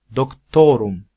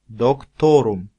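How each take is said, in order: No difference in how they are said.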